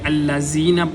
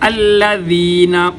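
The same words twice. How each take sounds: First: The middle consonant is a hard buzzing 'z'. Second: The middle consonant is a soft 'dh' sound. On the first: The speaker calls it wrong. "ज़ाल को सख्ती के साथ पढ़ेंगे तो ये हरफ का तब्दील करना हुआ" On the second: The speaker calls it right. "नरमी के साथ"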